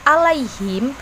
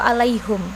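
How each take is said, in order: First: The vowel after the h is i. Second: The vowel after the h is u.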